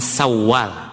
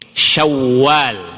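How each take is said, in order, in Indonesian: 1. Kata Syawal dimulai dengan bunyi s biasa. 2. Kata Syawal dimulai dengan bunyi sh. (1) "Bukan Sawal" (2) "Pakai shin"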